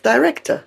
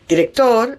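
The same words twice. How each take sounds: First: The stress is on the second syllable. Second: The stress is on the last syllable. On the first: This is the English word. "in English" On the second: This is the Spanish word. "in Spanish"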